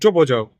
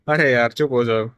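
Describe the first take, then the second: First: It is said angrily. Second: It is said laughingly.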